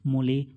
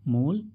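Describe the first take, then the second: First: An extra vowel is sounded after the final consonant. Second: The word ends on the consonant with no vowel. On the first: The speaker calls it wrong. "इस प्रकार से नहीं पढ़ते ना" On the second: The speaker calls it right. "क्या पढ़ते हैं?"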